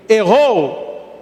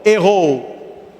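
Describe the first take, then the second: First: Errou? asked as a question, voice lifting; asking tune. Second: Errou. stated as a firm answer, falling; answering tune. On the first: Priest asking the congregation, question tune. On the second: Priest answering his own question, falling answer. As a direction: settle Errou. as a plain statement. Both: Shown as a demonstration.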